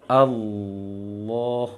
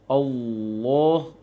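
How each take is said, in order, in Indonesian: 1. Vokalnya terdengar terbuka, tanpa membulatkan bibir. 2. Vokalnya terdengar membulat, dengan bibir monyong. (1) "Seharusnya di lisan saja. ... Seperti itu" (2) "sampai monyong bibir, bahkan sampai membengkak pipinya"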